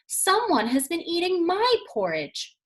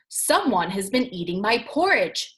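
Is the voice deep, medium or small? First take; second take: small; deep. First: It is said in a wee small voice. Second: It is said in a great big deep voice.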